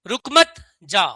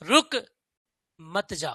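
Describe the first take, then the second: First: The pause comes right after 'mat'. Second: The pause comes right after 'ruk'. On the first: Don't stop, go away. "इसका मतलब भगा रहा हूं" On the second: Stop, don't go. "रुक जाओ भैया, मत जाओ"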